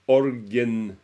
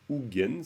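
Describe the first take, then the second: First: An r sound follows the first vowel. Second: No r sound follows the first vowel. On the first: The speaker calls it wrong. "ça c'est une prononciation bizarre du, du, du mot ougen" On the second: The speaker calls it right. "Ougen, ça veut dire l'ornement de la tête"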